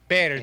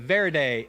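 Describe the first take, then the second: First: The word begins with a B sound. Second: The word begins with a V sound. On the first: The speaker calls it right. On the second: The speaker calls it wrong.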